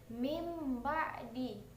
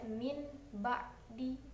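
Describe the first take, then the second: First: The first word ends with an m sound. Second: The first word ends with an n sound. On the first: The speaker calls it right. "suara dur itu diganti menjadi suara mim" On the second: The speaker calls it wrong. "Jadi tidak dibaca min ba'di"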